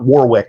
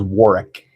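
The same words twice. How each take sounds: First: The middle W sound is pronounced. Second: The middle W sound is silent. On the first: The speaker calls it wrong. "It is not Warwick" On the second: The speaker calls it right. "You do not pronounce the second W"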